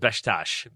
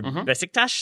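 First: It is said fast, without second-syllable stress. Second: The stress falls on the second syllable. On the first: This is how the speaker was taught locally. "as like two syllables. You say it very fast" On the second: This is how British speakers say it. "there's always the emphasis on that second syllable"

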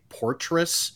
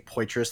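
First: The first syllable has an added R sound. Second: The first syllable has no R sound. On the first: The speaker calls it wrong. "added this like imaginary R in the beginning" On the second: The speaker calls it right. "they wouldn't say Poitras"

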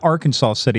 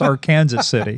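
First: The name ends with a 'saw' sound. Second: The name ends like the word Kansas. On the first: The speaker calls it wrong. "It's not Arkansas City" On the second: The speaker calls it right. "It's our Kansas City"

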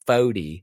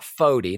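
First: The word does not sound like forty. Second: The word sounds like the number forty. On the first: The speaker calls it right. "FODI, favorite of the year" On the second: The speaker calls it wrong. "Not FODI, not like 40 ounce"

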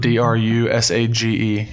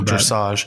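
First: The first vowel sounds like 'oo'. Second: The first vowel sounds like 'eh'. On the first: "with a U?" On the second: "I believe it's"

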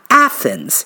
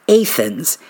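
First: Said the way the larger Ohio city says it. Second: Said the way the New Athens locals say it. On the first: This is how the more prominent city says its name. The speaker calls it wrong. "and not Athens" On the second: This is how the small college town says its name. The speaker calls it right. "make sure I pronounced it Athens"

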